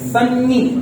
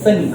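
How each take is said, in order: First: The middle n sound is doubled and held. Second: The middle n sound is short and single. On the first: The speaker calls it wrong. "होना ये चाहिए सन्नी, लेकिन होता नहीं है because sound is not repeated" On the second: The speaker calls it right. "आप इसे कहते हैं सनी"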